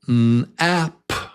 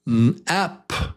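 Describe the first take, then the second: Both takes have the same delivery.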